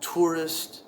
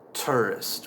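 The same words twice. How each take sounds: First: The first vowel is a rounded 'oor' sound. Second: The first vowel is an 'er' sound. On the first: "T plus the ur sound" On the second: "with an er sound"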